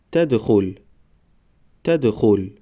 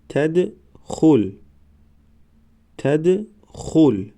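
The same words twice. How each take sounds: First: Said in the usual way. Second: Slow, syllables held and separated; slow syllable reading. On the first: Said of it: "به مثل خوانش سوم و چهارم". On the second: Shown as a demonstration. Teacher models first readings for learners, slow syllable by syllable. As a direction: sound it out for learners, pausing between syllables. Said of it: "بار یکم و دویم آهسته".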